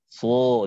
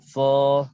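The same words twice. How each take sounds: First: The sad sound is very thick and heavy. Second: The sad sound is thinner and lighter. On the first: This is the Syam style of reading. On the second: This is the Egyptian style of reading.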